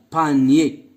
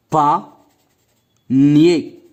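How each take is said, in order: First: Said in the usual way. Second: "Panier" said as pa, long pause, nier; split into syllables. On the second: Shown as a demonstration. Teacher counting syllables for pupils, word split in two. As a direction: break "Panier" in two, slowly and evenly. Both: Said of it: "le nombre de syllabes".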